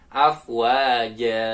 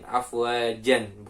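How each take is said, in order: First: The word ends in a long a vowel. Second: The word ends in an n sound. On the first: The speaker calls it right. "dibacanya ja panjang" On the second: The speaker calls it wrong. "bukan afwajan"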